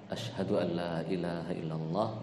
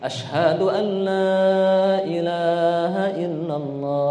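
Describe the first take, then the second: First: It is said softly and quietly. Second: It is said loudly and strongly.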